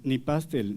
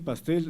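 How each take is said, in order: First: The stress is on the first syllable. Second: The stress is on the last syllable. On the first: The speaker calls it wrong. "no decimos ... ni pastel" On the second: The speaker calls it right. "Decimos ... pastel. ... son agudas"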